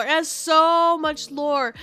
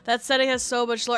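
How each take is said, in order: First: "so" stretched long, louder and higher; slow, emphatic "so"; stress on so. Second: Said in the usual way. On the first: Real, not acted. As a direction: lean hard on a drawn-out "so". Repeats it for emphasis.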